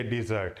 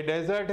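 First: dessert as di-ZERT, pitched low; light 'di', weight on the end of dessert; second-syllable stress. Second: desert as DE-zert, opening syllable strong; first-syllable stress. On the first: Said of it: "second syllable पर लग रहा है". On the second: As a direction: contrastive strong 'de' at the start of desert. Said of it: "इसमें first syllable पर". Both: Shown as a demonstration.

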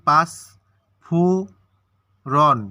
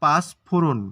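First: পাঁচ, ফো, রন with long pauses between; syllable by syllable. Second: Said in the usual way. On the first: Shown as a demonstration. Teacher showing which sounds go together, syllable by syllable. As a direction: break পাঁচ ফো রন into three isolated beats. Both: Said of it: "পাঁচ একসাথে উচ্চারণ করি".

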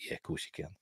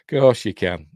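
First: Whispered, mocking aside; hushed sarcastic jab. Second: Said in the usual way. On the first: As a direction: breathe it out with mock disbelief.

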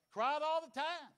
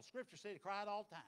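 First: "Cried all the time" higher, louder and slower, "all" stressed; emphatic repeat. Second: Said in the usual way. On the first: Shown as a demonstration. Preacher repeating Jeremiah's crying for emphasis, loud and drawn out.

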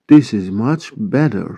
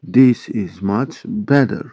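First: Said in the usual way. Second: "This is much better" at a slow, even pace; slow model repeat. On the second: Shown as a demonstration. English teacher repeating a sentence for Turkish learners, slow model repeat. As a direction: give each word its own space.

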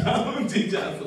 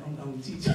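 First: Higher, breaking into a laugh on "I'm a teacher". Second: Said in the usual way. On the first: Real, not acted.

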